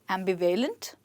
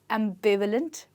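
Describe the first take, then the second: First: The stress is not on the second syllable. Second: The stress is on the second syllable. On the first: The speaker calls it wrong. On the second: The speaker calls it right. "with the stress on B"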